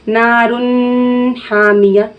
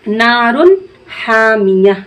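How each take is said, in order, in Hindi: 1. न की आवाज़ रोककर नाक में बोली जाती है। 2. न की आवाज़ नाक में रोके बिना जल्दी छोड़ी जाती है। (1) "अगर इसको हम ऐसे पढ़ दिए नारुन हामिया तो ये गलत हो गया। ... गुन्ना हो गया।" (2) "बगैर रोके नाक में नून की आवाज को पढ़ना है।"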